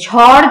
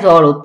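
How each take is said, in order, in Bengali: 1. প্রথম ব্যঞ্জনে জোরালো বাতাস বের হয়। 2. প্রথম ব্যঞ্জনে কোনো বাতাস বের হয় না। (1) "ঝড় যদি আমরা বলি" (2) "অনেকে বলে বাইরে জ্বর ঝ ঝড় হইতাছে"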